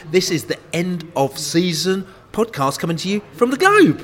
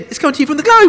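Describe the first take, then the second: First: Announcing. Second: Much higher, louder announcing; big announcement. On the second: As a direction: belt it out to the pub. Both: Acted. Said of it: "shall I do it again".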